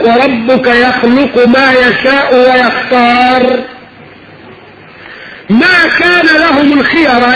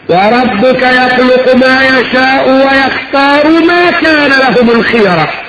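First: There is a pause after wayakhtar. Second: The phrase runs on without a pause after wayakhtar. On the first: The choice does not belong to people but to God alone. "المعنى الاول" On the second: God chooses what is good for them. "في قراءة ثانية"

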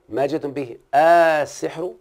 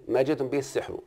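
First: The opening vowel of as-sihr is drawn out long. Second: The opening vowel of as-sihr is kept short. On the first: It asks whether what was brought is magic. "قرأ ابو عمرو ما جئتم به السحر بالمد" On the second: It states that what was brought is magic. "الباقون بغير مد"

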